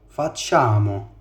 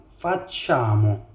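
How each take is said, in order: The two takes are said the same way.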